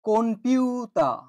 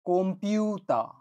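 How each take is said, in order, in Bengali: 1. p-এর আগে n ধ্বনি আছে। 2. p-এর আগে m ধ্বনি আছে। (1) "আমি লিখেছি" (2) "এটার উচ্চারণ হবে"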